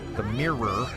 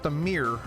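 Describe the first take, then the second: First: The word mirror is said as two syllables. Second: The word mirror is said as one syllable. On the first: This is how the speaker tries to say it. The speaker calls it right. "Two syllables" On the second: This is how other people in the area say it. The speaker calls it wrong. "which is what other people say in this area"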